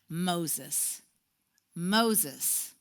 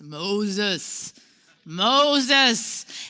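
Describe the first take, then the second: First: It is said in a plain, ordinary voice. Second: It is said in a powerful, booming voice.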